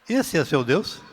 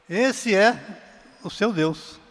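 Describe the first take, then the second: First: It is said as a question, rising at the end. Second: It is said as an exclamation, falling at the end.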